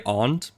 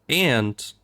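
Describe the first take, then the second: First: It sounds different from the insect word. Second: It sounds the same as the insect word. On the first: It clearly means a family member. "I always try to say aunt" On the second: It could mean the insect. "you could be talking about the insect"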